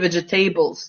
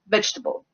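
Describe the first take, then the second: First: Every syllable is pronounced in full. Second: An unstressed syllable is dropped. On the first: The speaker calls it wrong. "our students like to say vegetables" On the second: The speaker calls it right. "it's vegetable"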